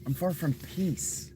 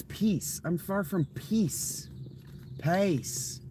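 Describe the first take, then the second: First: Higher mock southern accent; southern accent mimicry, once more. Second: Slow, high mock southern accent drawling; southern accent parody, high and slow. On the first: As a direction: repeat it in a teasing southern accent. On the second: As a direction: poke fun with a southern accent, stretched out. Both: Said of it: "Even his fucking southern accent".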